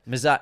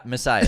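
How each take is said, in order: First: "Messiah" with a z, muh-ZAI; Boston accent slip. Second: "Messiah" with a clean s, muh-SAI-uh; self-corrected pronunciation. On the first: Host trying to repeat the correction, "Messiah" slipping to a z. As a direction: say "Messiah" with a buzzed z, cut short. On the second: Host fixing his own slip, "Messiah" with an s. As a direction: say "Messiah" with s, not z. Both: Real, not acted. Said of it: "Sorry, it's the Boston accent".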